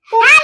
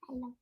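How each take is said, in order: First: It is said very loudly. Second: It is said at a quiet, normal volume.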